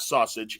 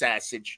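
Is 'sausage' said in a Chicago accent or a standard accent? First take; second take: standard; Chicago. First: It is said in a standard American accent. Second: It is said in a strong Chicago accent. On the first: The speaker calls it wrong. "It's not sausage" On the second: The speaker calls it right. "that's just Chicago, man"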